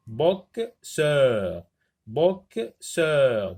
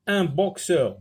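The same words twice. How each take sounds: First: "boxeur" broken into two beats, bok-seur; "boxeur" as bok, pause, seur; split into syllables. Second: Said in the usual way. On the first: Shown as a demonstration. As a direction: say "boxeur" syllable by syllable, slowly and firmly. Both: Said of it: "deux syllabes".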